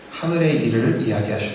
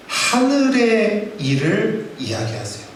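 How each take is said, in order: First: Said in the usual way. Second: 하늘의 stretched out slowly and raised; preacher lingers over 하늘의 to stress it; emphatic statement. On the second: Shown as a demonstration. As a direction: dwell on 하늘의 for weight.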